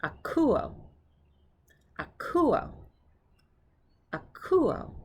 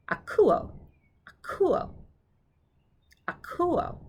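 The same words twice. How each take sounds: First: "Akuo" said more slowly, high on the middle syllable; careful, slower "Akuo" with pauses between; slowed down. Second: "akuo" said briskly, high on the middle syllable; quicker take of "akuo", middle syllable lifted; kind of fast. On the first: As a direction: draw out "Akuo" for learners. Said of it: "I'll slow it down". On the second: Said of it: "That was kind of fast". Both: Shown as a demonstration.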